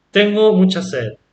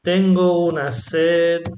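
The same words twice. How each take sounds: First: Said in the usual way. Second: Slower "Tengo una sed" with weight on "Tengo"; emphatic una. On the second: Shown as a demonstration. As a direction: stretch it out for emphasis. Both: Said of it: "For example".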